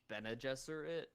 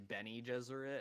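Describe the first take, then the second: First: The first word does not sound like Benny. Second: The first word sounds like the name Benny. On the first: This is how the newer films say it. "in the newer ones it's pronounced Bene Gesserit" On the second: This is how the older film says it. "It sounds like a person named Benny"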